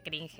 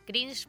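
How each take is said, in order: First: It is said with a local Spanish pronunciation. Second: It is said with the original English pronunciation. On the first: This is how people here say the word. "se le dice cringe acá" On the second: This is the official form of the word. "para mí sería la pronunciación oficial"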